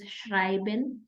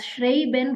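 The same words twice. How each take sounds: First: The vowel is pronounced as 'eye'. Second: The vowel is not pronounced as 'eye'. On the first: The speaker calls it right. "read it in the right way, which is Schreiben" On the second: The speaker calls it wrong. "you will be tempted to read it as Schreiben"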